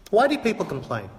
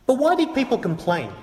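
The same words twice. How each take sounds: First: Said in the usual way. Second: Higher, stress on why; pointed question. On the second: Shown as a demonstration. Preacher challenging critics, "why" pitched higher. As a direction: lift "why" and let it fall.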